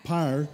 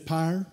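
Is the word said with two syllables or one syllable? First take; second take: one syllable; one syllable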